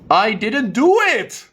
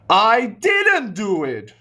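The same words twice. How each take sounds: First: The stress is on the word it. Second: The stress is on the word didn't. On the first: "I can also change it to it" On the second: "Now I change the word stress to maybe didn't"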